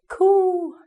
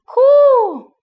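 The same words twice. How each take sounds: First: The coo sounds like a pigeon's call. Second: The coo sounds like an owl's hoot. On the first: The speaker calls it right. "That was good" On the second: The speaker calls it wrong. "That sounded like an owl"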